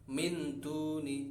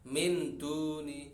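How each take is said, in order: No difference in how they are said.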